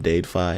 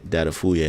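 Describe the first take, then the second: First: The name is pronounced as Dadefi. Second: The name is pronounced as Datafuye. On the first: The speaker calls it wrong. "at first I called him Dadefi. I didn't know how to pronounce it" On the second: The speaker calls it right. "that's how you pronounce his name"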